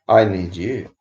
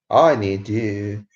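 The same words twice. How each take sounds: First: Said in the usual way. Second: Stretched out, lingering on each word; slow, half-joking appeal; slow plea. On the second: Real, not acted. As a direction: drag it out like a mock lament. Begging viewers to chat.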